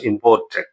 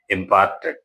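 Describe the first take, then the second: First: The middle vowel sounds like the 'or' in port. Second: The middle vowel sounds like the 'ar' in part. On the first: The speaker calls it wrong. "it is not to be pronounced as imported" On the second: The speaker calls it right. "It is to be pronounced as imparted"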